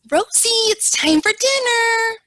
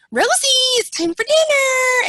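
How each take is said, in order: First: High, loud condescending sing-song; patronizing caregiver voice to a resident; talking down. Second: High, loud mocking echo; sarcastic mimicry of the condescending caregiver; mocking it back. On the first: Retold or imitated. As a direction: talk down to her like a child. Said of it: "the lady kinda spoke down to her". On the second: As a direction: throw the patronizing tone right back. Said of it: "kinda, like, gave it back to her".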